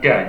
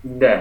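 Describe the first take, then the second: First: "da" with the everyday Indonesian D; wrong da. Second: "Da" with the Arabic dal sound; correct Arabic da. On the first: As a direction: give "da" as the incorrect example, plain D. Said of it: "bukan da". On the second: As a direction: model "Da" as an Arabic letter, not Indonesian D. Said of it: "tapi apa?". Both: Shown as a demonstration.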